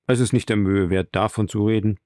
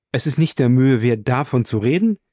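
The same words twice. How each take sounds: First: Understated, self-effacing statement; modest dismissal. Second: Protesting question with rising end; incredulous echo. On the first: Rescuer waves off talk of his deed, modestly. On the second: Friend repeats the rescuer's modest words, incredulous. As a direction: throw the words back in disbelief. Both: A narrator's reading.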